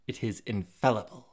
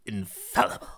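First: Said in the usual way. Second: "Infallible" said alone, savoured with emphasis; dwelling on INFALLIBLE. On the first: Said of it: "Let's dwell on that word". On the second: Shown as a demonstration. Reader pausing over one word, dwelling on "Infallible". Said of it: "Let's dwell on that word for a moment".

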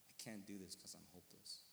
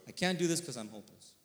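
First: Low, soft, defeated confession; quiet hopelessness. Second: Loud, firm quoting of despairing words; emphatic repeat. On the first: Man breaking down before his pastor, quiet hopelessness. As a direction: say it small and sunken, retelling despair. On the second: Preacher telling listeners to remember these words, emphatic. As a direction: hammer the line home so listeners remember it. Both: Retold or imitated.

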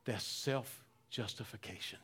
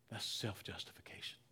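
First: Low, soft, slowed statement; quiet. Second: "self-justification" whispered, much softer. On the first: Preacher naming self-justification, soft and slow. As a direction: let the word "self-justification" sink in quietly. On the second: Preacher repeating the word to the church, whispered. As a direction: breathe "That's self-justification" with no voice. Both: Shown as a demonstration.

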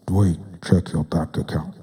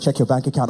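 First: Low, booming voice of God; deep God voice. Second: Said in the usual way. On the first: Acted. God telling Dwayne to check his account, low and booming. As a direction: speak as a deep divine voice. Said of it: "to do God's voice like that". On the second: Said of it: "So he's like".

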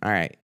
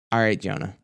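First: Fading sigh. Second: Resigned sigh. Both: Retold or imitated. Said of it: "she let out a sigh".

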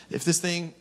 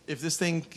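Both takes have the same delivery.

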